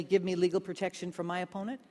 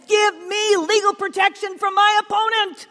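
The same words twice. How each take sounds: First: Said in the usual way. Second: Widow shouting high and loud, leaning hard on my; desperate shout. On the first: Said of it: "very plainly". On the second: Acted. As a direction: demand justice from the judge at full voice. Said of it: "He wants to make a point".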